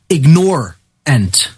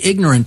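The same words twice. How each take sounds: First: It is said like ig-NORE-ant, stressing 'nore'. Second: It is said the usual way, IG-nor-ant. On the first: The speaker calls it right. "I want to propose that people start pronouncing that word ignorant" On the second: The speaker calls it wrong. "when we say ignorant"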